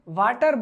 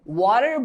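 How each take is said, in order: First: It is said in a local South Asian accent. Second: It is said in a Western English accent. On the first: The speaker calls it wrong. "बोलो तो गलत है" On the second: The speaker calls it right. "बोलो तो ठीक है"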